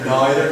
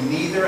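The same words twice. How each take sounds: First: The word has a posher, more upper-class pronunciation. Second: The word has the common, everyday pronunciation. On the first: This is a more patrician way of saying it. "I have more patrician thing going. I say neither" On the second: This is how most people say it. "most people would say neither"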